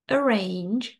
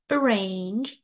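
No difference in how they are said.

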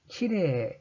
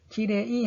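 First: The word ends with a lengthened 'e' sound. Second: The word ends with a separate 'i' sound. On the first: The speaker calls it right. "이렇게 길게 늘려주시면 됩니다" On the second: The speaker calls it wrong. "키레이 하지 마시고"

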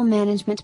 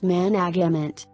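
First: The word has no added sounds and normal stress. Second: The word has added sounds and shifted stress. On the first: The speaker calls it right. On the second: The speaker calls it wrong.

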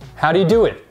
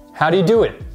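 The two takes are said the same way.

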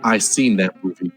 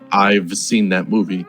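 First: The v sound after I is dropped. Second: The v sound after I is pronounced.

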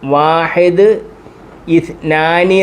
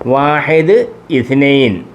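First: The second word ends with a long 'aani'. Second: The second word ends with a short 'ain'. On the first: This is the standard form used for office work. "നമ്മൾ നേരത്തെ പഠിച്ചത് അങ്ങനല്ല, വാഹിദ് ഇസ്നാനി എന്നായിരുന്നു" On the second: This is the form Arabs use in everyday speech. "അറബികളുടെ സംസാര ശൈലിയിൽ അവർ സംസാരിക്കുന്നത്"

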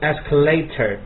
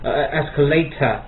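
First: It is said with a British accent. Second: It is said with a British accent.

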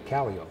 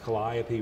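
First: It is said the way locals say it. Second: It is said the way outsiders say it.

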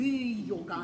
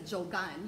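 First: The word begins with a Y sound. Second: The word begins with a J sound. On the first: The speaker calls it right. "you say It as yogan" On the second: The speaker calls it wrong. "But you don't say it's a jogan"

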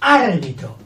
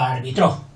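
First: The stress is on the first syllable. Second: The stress is on the last syllable. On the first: It names the referee. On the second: It means he refereed.

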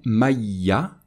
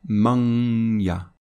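First: The n disappears with no nasal sound. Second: The n becomes a held nasal sound. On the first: The speaker calls it wrong. "on ne va pas prononcer" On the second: The speaker calls it right. "on va prononcer"

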